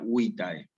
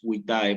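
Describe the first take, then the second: First: The stress is on the first syllable. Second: The stress is on the last syllable. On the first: The speaker calls it right. "acentuar en la penúltima sílaba, como si dijera" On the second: The speaker calls it wrong. "nunca es vitae, porque en latín no hay acento agudo"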